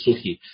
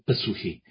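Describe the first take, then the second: First: The initial p sound is not pronounced. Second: A short p sound is pronounced at the start. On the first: The speaker calls it wrong. "不是suhi" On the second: The speaker calls it right. "是pasuhi 啊，它也有一个po"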